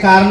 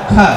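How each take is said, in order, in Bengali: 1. প্রথম k ধ্বনিতে বাতাসের কোনো ফুঁ নেই। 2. প্রথম k ধ্বনিতে বাতাসের ফুঁ আছে। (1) "এটাকে কার না বলে"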